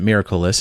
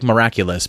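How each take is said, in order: First: It is said with a different, show-style pronunciation. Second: It is said as the English spelling reads. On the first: This is how the show itself says it. "but they pronounce it Miraculous" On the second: This is how the spelling suggests it sounds. "It's spelled like miraculous"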